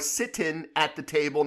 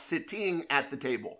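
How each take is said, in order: First: The final g sound of 'sitting' is dropped. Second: The final g sound of 'sitting' is pronounced.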